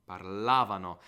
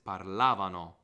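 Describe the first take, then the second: No difference in how they are said.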